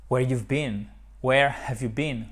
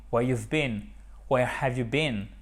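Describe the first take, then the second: No difference in how they are said.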